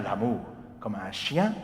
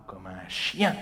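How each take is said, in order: First: "l'amour, comme un chien" joined in one line; right phrasing. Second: "comme un chien" cut off with a rising break; wrong phrasing. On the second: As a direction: pause after "comme un chien". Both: Shown as a demonstration. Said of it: "not comme un chien".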